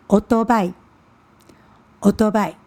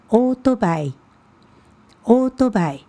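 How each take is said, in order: First: オートバイ with the stress on the first syllable, Taiwanese style; オートバイ with a punched opening that falls away; Taiwanese-style pronunciation. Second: オートバイ said with flat, even Japanese pitch; オートバイ kept level across the word; Japanese pronunciation. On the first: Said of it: "但是台湾这边会怎么念呢". (台湾腔，オートバイ重音在第一音节) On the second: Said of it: "那像摩托车". (日语发音，オートバイ平音) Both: Shown as a demonstration.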